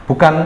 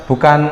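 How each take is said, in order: The two takes are said the same way.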